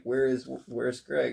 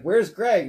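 First: Said in the usual way. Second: Loud, high Where's Greg?; urgent demand. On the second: Retold or imitated. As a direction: demand it, alarmed. That's what happened first.

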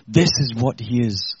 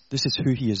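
First: Slowed, louder, each word weighted: "this is what he is"; deliberate preacher's emphasis on "this is what he is"; slow emphatic stress. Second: Said in the usual way. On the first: Acted. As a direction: lean hard on "this is what he is", slowly. Preacher emphasizing God's nature.

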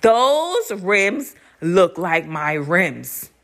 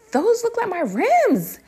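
First: THOSE hugely stretched, then each word slow; slow insistence. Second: Very high, drawn-out suspicion; dawning suspicion. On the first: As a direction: drag out "Those rims" to insist. Insisting after boyfriend says nah. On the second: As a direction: pitch it way up, stretching the words. First telling boyfriend of suspicion. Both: Retold or imitated.

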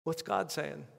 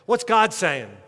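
First: Hushed question. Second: Loud question. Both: Acted. Preacher repeats question, loud then hushed.

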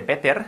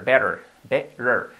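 First: "better" with a hard T, not flapped; "better" mispronounced with a full T sound; wrong hard-T pronunciation. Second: Slow "better" with the T as a soft tapped R; "better" with an American flap T; soft flapped T. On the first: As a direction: say "better" with a crisp Spanish-style T in the middle. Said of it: "cuidado que no se dice better". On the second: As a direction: model "better" slowly, tapping the middle like a soft Spanish R. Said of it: "la convertimos en una R suave". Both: Shown as a demonstration.

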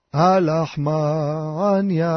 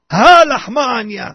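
First: Low, drawn-out recitation of the Haggadah line; slow solemn recitation. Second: Loud, drawn-out declaration of the Haggadah line; loud proclamation. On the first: Leading the seder table into the Haggadah, slow low intoning. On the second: Proclaiming over the freshly broken matzah, loud and drawn out. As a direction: proclaim it with a big stretched first syllable. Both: Shown as a demonstration.

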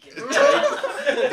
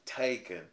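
First: Put-on high, loud southern accent; squeaky southern accent, laughing. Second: Said in the usual way. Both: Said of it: "weird southern accent".

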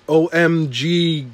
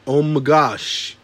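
First: Slow spelled out. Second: Slow, spelled out fully. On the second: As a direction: say it slowly, word by word. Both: Shown as a demonstration.

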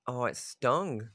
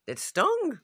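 First: Slow and pained. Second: Much higher, louder "stung"; pained high cry of "stung"; sharp high yelp. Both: Real, not acted.

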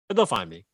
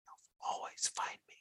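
First: Said in the usual way. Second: Eerie hushed whisper; creepy whisper. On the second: Acted. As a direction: breathe it like a stalker. Improv creepy threat.

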